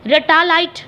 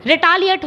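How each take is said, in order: First: रेटालाइट said as re-ta-LITE, ending in "lite"; wrong pronunciation read out. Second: रिटालिएट said ri-TA-li-ate, ending "-ate"; correct pronunciation. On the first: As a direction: read रेटालाइट like "ray-ta-light", as the option misspells it. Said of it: "रेटालाइट तो ऐसा कुछ नहीं है". (रेटालाइट को "लाइट" वाली गलत आवाज़ में पढ़ना) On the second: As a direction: give रिटालिएट its proper English sound, ri-ta-li-ate. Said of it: "I think ये". (रिटालिएट को सही अंग्रेज़ी उच्चारण, अंत में "एट") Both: Shown as a demonstration.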